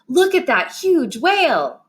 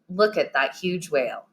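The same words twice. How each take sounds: First: It is said with strong, excited feeling. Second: It is said flatly, like a plain statement. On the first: The speaker feels something strongly. "we use those when we want to show a strong feeling" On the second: It is just a statement. "If we put a period at the end, it would sound more like"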